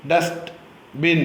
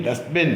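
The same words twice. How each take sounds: First: dustbin with a clear pause between dust and ബിൻ; split into syllables. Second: Said in the usual way. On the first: Shown as a demonstration. Teacher models for pupils, dustbin split in two. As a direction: break dustbin into two separate beats. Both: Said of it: "Say the following words".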